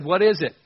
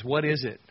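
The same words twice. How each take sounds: First: Loud, high astonished "What is it?"; astonished exclaim. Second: Said in the usual way. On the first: Retold or imitated. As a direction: blurt out "What is it?" in amazement. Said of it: "they looked at it and said". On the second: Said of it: "It means".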